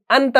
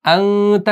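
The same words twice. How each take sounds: First: "अंत" with a hard, fully sounded n; "अंत" without any nasal hum; clear noon, wrong. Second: "अंत" with the n held as a nasal hum; "अंत", n softened into the nose; hidden noon. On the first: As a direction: say "अंत" as an-ta, tongue touching for n. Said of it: "हमने अंत नहीं पढ़ा". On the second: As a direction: hum "अं" through the nose before the "त". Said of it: "नून को जाहिर नहीं किया". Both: Shown as a demonstration.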